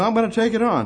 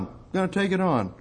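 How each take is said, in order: First: Higher, bold declaration; higher defiant cry; defiant resolve. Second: Said in the usual way. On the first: Shown as a demonstration. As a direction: rise up and take it on.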